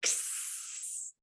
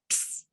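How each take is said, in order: First: An unvoiced k and s said apart, much softer; X sound, separate. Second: Unvoiced ks run together in one puff; X sound, blended. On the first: Teacher modelling X in two parts. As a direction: split X into two breathy sounds. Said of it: "makes two sounds". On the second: Teacher blending the X sound for learners. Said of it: "blend it together a little better". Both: Shown as a demonstration.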